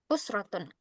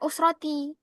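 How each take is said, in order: First: The word ends with an -un sound. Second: The word ends with an -i sound. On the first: The speaker calls it right. "Kembalikan dia ke harokat aslinya" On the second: The speaker calls it wrong. "Jangan dibaca usroti"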